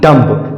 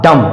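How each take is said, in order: First: The final b sound is pronounced. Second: The final b sound is silent. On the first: The speaker calls it wrong. "ना कि डम्ब" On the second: The speaker calls it right. "इसका भी उच्चारण होगा डम"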